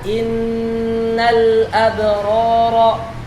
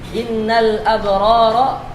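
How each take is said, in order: First: The nasal n sound is held long. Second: The nasal n sound is cut short. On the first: The speaker calls it right. "gunnah yang panjang" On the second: The speaker calls it wrong. "Bacaan yang salah apabila kita membaca dengan cepat"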